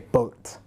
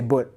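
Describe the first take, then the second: First: It is said in a British accent. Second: It is said in a Malaysian accent.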